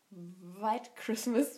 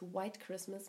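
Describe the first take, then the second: First: White starts with a German v sound. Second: White starts with an English w sound. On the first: "wie der Deutsche es aussprechen würde" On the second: "mit W"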